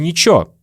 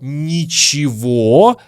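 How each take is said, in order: First: The word is pronounced in a shortened form. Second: The word is pronounced in its full form. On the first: "мы часто говорим" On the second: "Вместо слова «ничего»"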